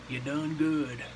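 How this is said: It is said in a put-on Southern accent.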